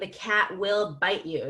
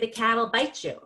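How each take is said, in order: First: The word will is said in full. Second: The word will is contracted onto cat. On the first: "instead of saying the cat will bite you, that's going to slow you down" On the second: "The next tool in the box is contractions. You can just say"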